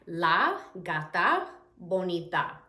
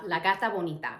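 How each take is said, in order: First: "La gata bonita" slowly, word by word; slow, carefully spaced Spanish example; slow teaching repeat. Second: Said in the usual way. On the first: Shown as a demonstration. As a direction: separate La, gata and bonita for learners.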